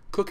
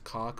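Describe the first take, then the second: First: The name rhymes with book. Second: The name rhymes with rock. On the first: This is the way the company name is said. "It's K O C H" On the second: This follows the spelling and sounds rude. "pronouncing it the way it's uh, spelled, which is cock"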